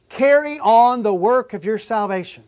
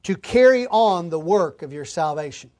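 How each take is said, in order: First: Emphatic preacher's restatement, Carry punched; stress on Carry. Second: Said in the usual way. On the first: Shown as a demonstration. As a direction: Carry hit hard and falling, whole line louder. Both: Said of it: "I would translate it like this".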